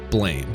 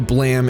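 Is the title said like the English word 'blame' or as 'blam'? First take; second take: blame; blam. First: It sounds like the English word 'blame'. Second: It ends in a short 'blam' sound. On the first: This is the everyday way to say it. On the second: This is the technically correct way to say it.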